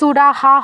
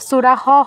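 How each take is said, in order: First: It ends with a full ha syllable. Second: It ends with a half h sound. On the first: "এটা কিন্তু সুরাহা হবে না" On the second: "বা সুরাহ হবে না"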